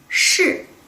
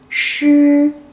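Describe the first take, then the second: First: The pitch falls sharply from high. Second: The pitch stays high and level. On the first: It means yes. "falling tone could be yes" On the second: It means lion. "high flat tone could be lion"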